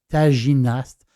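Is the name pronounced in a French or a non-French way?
French. The name is pronounced with French sounds.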